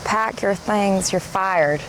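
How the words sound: It is said in a Southern American accent. "your Thelma accent. It's presumably a Southern American"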